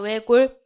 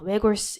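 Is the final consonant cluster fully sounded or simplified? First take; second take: simplified; fully sounded. First: The final cluster is reduced to one sound. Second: Both consonants of the final cluster are sounded. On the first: The speaker calls it right. "얘는 쉬워요" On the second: The speaker calls it wrong. "외골스 이렇게 안 되잖아요"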